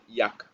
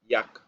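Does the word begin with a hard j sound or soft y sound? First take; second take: soft y; soft y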